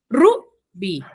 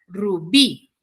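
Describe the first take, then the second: First: The stress is on the first syllable. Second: The stress is on the last syllable. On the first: The speaker calls it wrong. "recae la mayor fuerza de voz en Ru" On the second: The speaker calls it right. "su sílaba tónica recae en las agudas"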